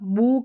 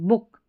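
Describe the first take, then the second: First: The vowel is long. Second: The vowel is short. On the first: The speaker calls it wrong. "बुक नहीं" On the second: The speaker calls it right. "Short"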